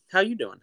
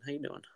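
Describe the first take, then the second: First: High, loud, bouncy "how you doing"; playful loud greeting. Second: Soft echo. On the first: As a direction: throw it out big and high. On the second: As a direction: drop it down to a soft repeat. Playful repeated greeting. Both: Pretend.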